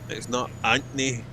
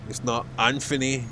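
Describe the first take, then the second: The two takes are said the same way.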